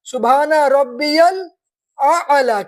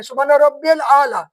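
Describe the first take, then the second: First: الاعلی said slowly with the ain, al-a'laa; correct slow reading. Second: الاعلی said as alaala with no ain; wrong reading. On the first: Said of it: "اصل میں کیا ہے؟". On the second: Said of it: "وہ الف سے پڑھتے ہیں". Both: Shown as a demonstration.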